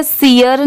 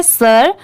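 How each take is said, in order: First: सियर said as see-er, two syllables; wrong reading. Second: सर said as one short syllable, sir; right reading. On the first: Teacher warns students off the wrong see-er reading. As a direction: read सियर as see-yer. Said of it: "इसे सियर नहीं पढ़ेंगे". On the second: Teacher gives students the right sir sound. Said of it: "सर की आ रही है". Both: Shown as a demonstration.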